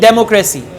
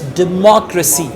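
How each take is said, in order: First: The stress falls on a misplaced syllable. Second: The stress falls on the standard syllable. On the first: The speaker calls it wrong. "Now she's saying democracy" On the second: The speaker calls it right. "The right pronunciation is democracy"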